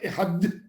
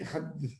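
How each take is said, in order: First: The final consonant is a hard d sound. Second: The final consonant is a soft th sound. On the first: The speaker calls it wrong. "Tu ne peux pas dire" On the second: The speaker calls it right. "Il doit être faible"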